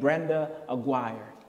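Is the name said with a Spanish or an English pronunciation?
English. The name is said with English pronunciation. This is the name as changed after moving.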